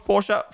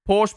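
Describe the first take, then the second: First: Porsche said as POR-shuh; two-syllable Porsche. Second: Porsche said as PORSH; one-syllable Porsche. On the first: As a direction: sound a final uh in Porsche. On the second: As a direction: stop Porsche on the sh. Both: Shown as a demonstration.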